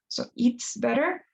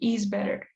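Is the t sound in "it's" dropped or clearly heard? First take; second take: heard; dropped. First: The t of "it's" is clearly pronounced. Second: The t of "it's" is dropped entirely. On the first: The speaker calls it right. "even over pronounce the it" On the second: The speaker calls it wrong. "it doesn't sound like you're just saying is better"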